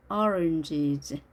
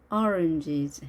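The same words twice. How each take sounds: The two takes are said the same way.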